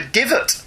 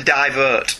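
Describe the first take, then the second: First: "divot" with a short i, DIV-ut; intended divot. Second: "Divert" with a long first vowel, DYE-vert; misread divot. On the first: Host explains what listener meant, "divot" as DIV-ut. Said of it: "he means when I call you". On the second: Host reads listener's puzzling word, "Divert" as DYE-vert. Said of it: "I didn't know what he meant". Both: Shown as a demonstration.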